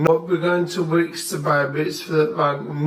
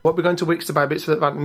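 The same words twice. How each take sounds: First: Slow, drawn-out broad Yorkshire; thick Yorkshire accent. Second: Thick Yorkshire accent, pleading. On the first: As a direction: stretch every word in thick Yorkshire. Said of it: "a right thick Yorkshire accent". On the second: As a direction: lay on a broad Yorkshire accent. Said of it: "I always get a Yorkshire accent". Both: Shown as a demonstration.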